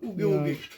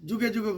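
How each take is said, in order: First: Each word begins with a 'y' sound. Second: Each word begins with a 'j' sound. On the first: The speaker calls it right. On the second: The speaker calls it wrong.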